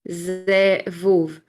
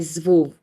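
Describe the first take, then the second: First: It is split slowly into two syllables. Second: It is said quickly as one syllable.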